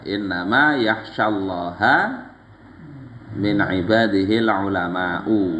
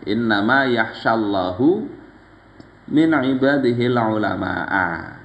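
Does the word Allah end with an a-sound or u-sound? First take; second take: a-sound; u-sound. First: Allah ends in a, ulama ends in u. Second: Allah ends in u, ulama ends in a. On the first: The scholars are the ones who fear God. "Ini dibaca ha atau hu" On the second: God is the one who fears the scholars. "yang kedua ini"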